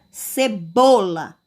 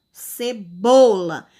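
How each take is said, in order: First: Said in the usual way. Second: "Cebola" very slow, with a loud, long "bo"; middle syllable stressed. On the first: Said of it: "eu tenho uma sílaba forte". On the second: Shown as a demonstration. Teacher demonstrating the stressed syllable, "Cebola" with "bo" loud and drawn out. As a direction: stretch and punch "bo" in "Cebola". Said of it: "pronuncio com mais intensidade".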